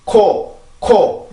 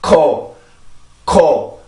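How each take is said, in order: First: Quick Korean "코", opened at once; "코" with no delay before the vowel; Korean k release. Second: English-style "코" with delayed, aspirated release; "코" started late after holding the breath at the k; English k with built-up air. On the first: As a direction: release "코" straight away as in Korean. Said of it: "요렇게 되지만". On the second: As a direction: gather air behind the k before releasing "코". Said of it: "영어는 공기를 모으는 시간 때문에". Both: Shown as a demonstration.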